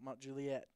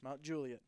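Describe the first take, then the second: First: The stress is on the last syllable of Juliet. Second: The stress is on the first syllable of Juliet. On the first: The speaker calls it wrong. "not the et" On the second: The speaker calls it right.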